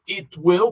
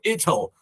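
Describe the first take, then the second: First: The word will is pronounced in full. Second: Will is reduced to a short ll sound.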